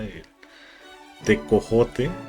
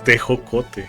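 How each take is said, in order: First: The second syllable is co, the third jo. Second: The second syllable is jo, the third co. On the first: The speaker calls it wrong. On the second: The speaker calls it right. "pero es tejocote"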